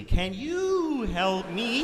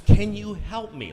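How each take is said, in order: First: Very slow, higher, rising probe; tuning his frequency. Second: Louder and slower, trying to reach him; louder, slower plea. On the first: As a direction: stretch it out slowly, higher, as if tuning a radio. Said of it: "find his frequency". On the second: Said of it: "Like she's trying to find his frequency". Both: Retold or imitated.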